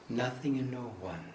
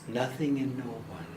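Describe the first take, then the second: The two takes are said the same way.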